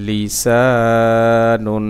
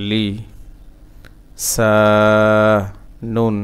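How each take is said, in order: First: Slow chant, syllables linked; joined recitation. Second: Separated syllables with long pauses. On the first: Teacher putting the word back together, slow joined chant. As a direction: join it up with long held vowels. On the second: Teacher breaking a word down for learners, syllable by syllable. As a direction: sound out one syllable at a time. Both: Shown as a demonstration.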